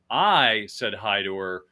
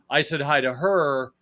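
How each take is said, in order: First: The stress is on the word I. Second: The stress is on the word her.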